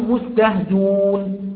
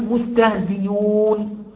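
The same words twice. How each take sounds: First: The glottal stop is dropped from the word entirely. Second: The glottal stop is replaced by a y sound. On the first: "فنحذف الهمزة ونقول" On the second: "ده همز مضموم بعد كسر فيبدأ الياء"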